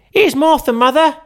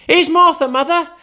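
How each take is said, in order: First: Put-on very high, loud young girl calling out; a cheeky girl popping in to surprise her mother; girl's voice. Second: Put-on very high, loud excited children; small kids gleefully shouting the news; children crying out. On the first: Martha announces herself. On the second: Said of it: "cried the two young Cratchits".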